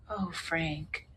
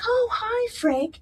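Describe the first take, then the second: First: Soft, pitying sigh of a name; hushed sympathy. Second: High, cheery hello to an acquaintance; friendly surprised greeting. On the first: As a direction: imitate someone quietly taking in bad news. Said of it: "like that". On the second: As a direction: imitate a delighted, high-pitched greeting. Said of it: "and she's like". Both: Retold or imitated.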